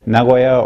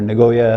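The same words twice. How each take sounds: First: It is said with a Japanese pronunciation. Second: It is said with an American pronunciation.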